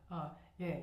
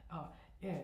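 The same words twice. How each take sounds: The two takes are said the same way.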